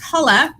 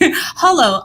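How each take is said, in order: First: The word ends with an 'ah' vowel. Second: The word ends with an 'oh' vowel. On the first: "which I'd love to pronounce as Hola" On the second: "but okay"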